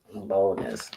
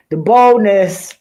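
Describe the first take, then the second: First: "Boldness" repeated much softer and lower, falling away; quiet echo. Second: Slow, loud and higher on "The boldness", every syllable leaned on; indignant emphasis. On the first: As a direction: mutter "Boldness" again under your breath. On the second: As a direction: drag out "The boldness" in outraged disbelief. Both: Real, not acted.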